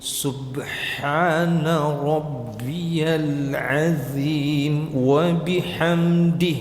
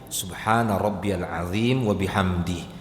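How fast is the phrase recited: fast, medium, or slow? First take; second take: slow; medium. First: The phrase is recited slowly and deliberately. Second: The phrase is recited at a moderate pace. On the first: "Tahqiq itu" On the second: "Tadwir, tengah dia"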